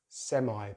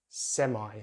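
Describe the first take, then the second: First: American accent, ending in an 'eye' sound. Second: American accent, ending in an 'eye' sound.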